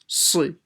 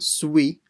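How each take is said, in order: First: No w sound follows the consonant. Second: A w sound follows the consonant. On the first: The speaker calls it right. "there shouldn't be a w sound in it" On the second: The speaker calls it wrong. "not like a we sound"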